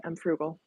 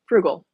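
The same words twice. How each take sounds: First: Said in the usual way. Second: Frugal punched out loud, falling; stress on Frugal. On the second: Shown as a demonstration. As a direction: hit Frugal hard and loud.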